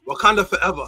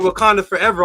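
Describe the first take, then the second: First: It is said in a Nigerian-sounding accent. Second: It is said in the speaker's normal accent.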